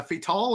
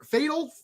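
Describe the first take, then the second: First: "Fatal" with a full "tall" ending; second syllable stressed. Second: "Fatal" like the ordinary word, FAY-tl; first syllable stressed. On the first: Vlogger unsure of a developer's name, Fatal said fay-TALL. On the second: Vlogger trying the other reading of a name, Fatal said FAY-tl. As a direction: say "Fatal" with a weak, swallowed ending. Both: Shown as a demonstration. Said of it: "How do you say".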